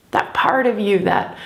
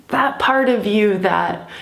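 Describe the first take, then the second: No difference in how they are said.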